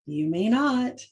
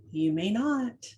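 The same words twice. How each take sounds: First: "You may not" slowed, each word weighted; slow firm repeat. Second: Calm, firm "You may not"; "You may not" said evenly, not evenly stressed; firm phrase. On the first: Mom repeating the daycare line to viewers, slow and emphatic. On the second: Daycare provider quoted redirecting kids, calm and firm. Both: Retold or imitated. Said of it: "that was her line".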